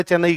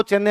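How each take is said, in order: First: चेन्नई ending in "nai"; Hindi-style चेन्नई with a final diphthong; North Indian pronunciation. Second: चेन्नई as "CHEN-ne"; चेन्नई with doubled n and no "ai"; original local pronunciation. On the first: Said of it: "north India वाले चेन्नई कहते हैं". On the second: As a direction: say चेन्नई ending in a plain "e". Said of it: "Hindi medium वालों को चेन्नई आता नहीं है बोलना". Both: Shown as a demonstration.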